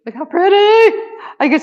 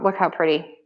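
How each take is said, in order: First: Excited high squeal on pretty; squealing look how pretty. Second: Said in the usual way. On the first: Real, not acted. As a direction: squeal pretty far higher and rising. Gushing over a keychain.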